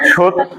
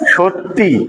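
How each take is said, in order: First: The word ends without an added final 'i' vowel. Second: The word ends with an added final 'i' vowel.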